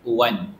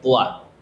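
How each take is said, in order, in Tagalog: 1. Nagtatapos ang salita sa tunog na n. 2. Nagtatapos ang salita sa patinig, walang n. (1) "kung tutuloy ka" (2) "kapag maghinto ka"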